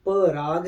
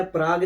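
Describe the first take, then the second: First: पराग with a clear short a between प and र; correct Parag. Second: प्राग said as one clipped syllable, no vowel after प; wrong Prag. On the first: Correcting the anchor: पराग, two clear syllables. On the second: Correcting the anchor: प्राग, squeezed into one syllable. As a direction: say प्राग fast with the p and r together. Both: Shown as a demonstration. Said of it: "प्राग नहीं है, पराग हैं".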